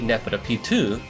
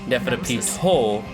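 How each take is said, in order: First: The name is said in a French style. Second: The name is said in a Japanese style. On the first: "should be Neferapitu, right? If it's French" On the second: "she pronunciates it Neferapito. Like it's Japanese"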